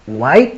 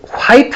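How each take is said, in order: First: The word begins with no h sound. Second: The word begins with a strong breathy h. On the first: "white 이렇게 하잖아요" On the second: "화이트 안 하고"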